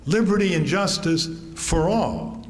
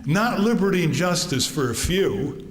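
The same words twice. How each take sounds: First: "all" landed firmly as the right ending; father correcting the customers, stressing "all". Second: "few" pressed as the wrong ending; father correcting the customers, stressing "few". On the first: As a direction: drive home "all". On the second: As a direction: lean on "few" dismissively. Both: Retold or imitated. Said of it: "And he says".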